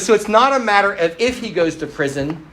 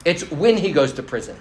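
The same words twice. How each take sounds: First: IF singled out, pitch held higher; stress on IF. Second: WHEN punched as the correction; stress on WHEN. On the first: A mother on her son going to prison, stressing IF. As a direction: lean on "if", leaving the thought open. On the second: A mother sure of her son's prison future, stressing WHEN. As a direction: land hard on "when", then let it fall. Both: Retold or imitated.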